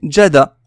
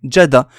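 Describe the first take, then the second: First: The d sound is single and short. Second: The same.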